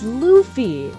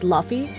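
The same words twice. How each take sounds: First: The first syllable sounds like 'loo' in loofah. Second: The first syllable does not sound like 'loo'. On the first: The speaker calls it right. "it's Luffy, like a loofah" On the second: The speaker calls it wrong. "I thought Luffy's name was pronounced Luffy"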